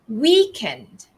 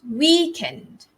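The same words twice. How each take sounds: No difference in how they are said.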